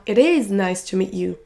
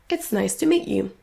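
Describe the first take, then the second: First: "It is" in two full words, IS stressed; uncontracted. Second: "it's" as one short syllable, "meet" stressed; contracted. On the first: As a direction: say "It is" fully, leaning on "is". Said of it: "On ne dira pas". (It is en entier, sans contraction) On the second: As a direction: run "it's" into "nice", reduce "to". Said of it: "mais it's". (it's contracté, accent sur meet) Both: Shown as a demonstration.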